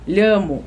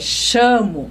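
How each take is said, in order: First: It is said in a standard Spanish accent. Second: It is said in a River Plate Spanish accent. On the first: "o espanhol puro, ele fala com, com os dois L" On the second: "que nem os castelhanos falam, argentino, uruguai, uruguai é chamo"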